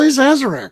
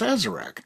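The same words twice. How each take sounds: First: The word begins with a Z sound. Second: The word begins with an S sound.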